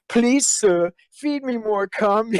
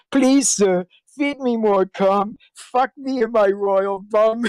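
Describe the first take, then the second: First: Higher, slow mock plea; mock pleading. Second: Higher, slow hammed-up begging; mock pleading. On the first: Quoting a fan video to the interviewer, hammed-up pleading. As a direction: beg it in a hammed-up little voice. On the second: Retelling the video the interviewer heard, mock begging. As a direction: plead it out slowly like a pitiful servant. Quoting fan tribute video again.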